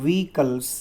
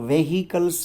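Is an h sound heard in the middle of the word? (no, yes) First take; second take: no; yes. First: It is said without an h sound. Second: It is said with an h sound. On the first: The speaker calls it right. "એનો ઉચ્ચાર કરવાનો છે વ્હીકલ્સ" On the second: The speaker calls it wrong. "વેહિકલ્સ નહીં"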